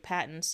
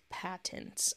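First: The t sounds are softened or swallowed. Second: Both t sounds are pronounced crisply and clearly. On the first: "I always say patents" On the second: "I'm enunciating that on purpose"

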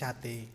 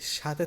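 First: The middle consonant is unaspirated. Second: The middle consonant is aspirated. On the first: "ত উচ্চারণ করতে সময় লাগে না" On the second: "থ উচ্চারণ করতে সময় লাগে"

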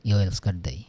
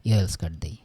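The two takes are said the same way.

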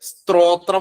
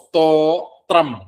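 First: An extra r follows the first st sound. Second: The first st sound has no r after it. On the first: The speaker calls it wrong. "ചിലര് സ്ത്രോത്രം എന്നൊക്കെ ഉള്ള രീതിയിൽ ഉച്ചരിച്ചു പോവും അറിയാതെ" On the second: The speaker calls it right. "സ്തോത്രം എന്നേ ഉള്ളൂ"

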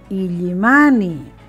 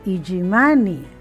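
First: The double L is pronounced as a distinct ll. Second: The double L is pronounced like a y. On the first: The speaker calls it right. "sino Illimani" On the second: The speaker calls it wrong. "No es correcto escribir Illimani"

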